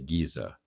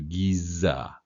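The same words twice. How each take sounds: First: The middle z sound is short and single. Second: The middle z sound is held long, doubled. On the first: This is casual everyday speech. "we kind of gloss over that and say Giza" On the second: This is careful, professional speech. "as opposed to Giza"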